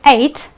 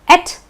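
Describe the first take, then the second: First: The ending is said like 'eight'. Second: The ending is said like 'et'. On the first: "pronounce it as the number eight" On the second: "pronounced as et"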